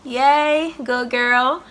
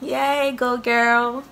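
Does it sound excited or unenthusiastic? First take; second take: unenthusiastic; unenthusiastic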